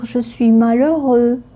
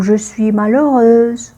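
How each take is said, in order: First: Malheureux ending on a plain eu vowel, no z; the masculine form malheureux, final x silent. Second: Malheureuse ending in a sounded z; the feminine form malheureuse, final z sounded. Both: Shown as a demonstration.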